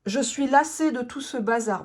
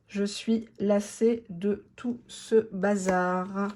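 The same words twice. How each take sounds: First: Said in the usual way. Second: "Je suis lassée de tout ce bazar" stretched out very slowly; savouring the card's message slowly; slow emphatic reread. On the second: Shown as a demonstration. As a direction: drag out each word to let it sink in.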